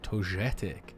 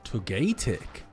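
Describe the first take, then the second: First: The middle g is a soft g. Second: The middle g is a hard g.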